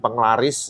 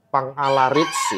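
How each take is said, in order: First: The name is said quickly, run together as one word. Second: The name is said slowly, in separate parts.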